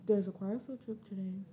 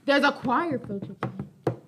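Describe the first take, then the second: First: Quiet, fast mumble; said too softly and fast; mumbled quickly. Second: Said again louder and clearer; louder, clearer second take; louder repeat. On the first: Real, not acted. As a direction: rush it under your breath. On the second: Shown as a demonstration. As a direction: repeat it so everyone hears. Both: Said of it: "are you gonna say that a little louder?".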